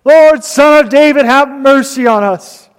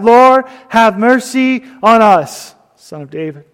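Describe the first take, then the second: First: Loud, high-pitched imitated plea; crying out louder. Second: Crying out, restrained. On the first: Preacher retells blind men begging Jesus for mercy, loud cry. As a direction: cry out all the more, voice lifted high. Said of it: "they cried out all the more". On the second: Retold or imitated. Preacher retells two blind men calling to Jesus, restrained cry. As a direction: call out for mercy, lightly voiced. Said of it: "cried out".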